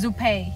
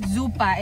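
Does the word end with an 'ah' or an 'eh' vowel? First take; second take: eh; ah. First: The word ends with an 'eh' vowel. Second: The word ends with an 'ah' vowel. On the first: "it's Zuppe" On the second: "it doesn't um pronounce like um Zuppa"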